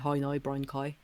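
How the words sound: It is said in a Northern Irish accent.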